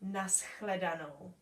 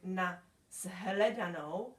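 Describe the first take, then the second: First: The sounds of the word are reduced and simplified. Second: Every sound of the word is pronounced fully. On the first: "people often pronounce it" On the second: "instead of nashledanou"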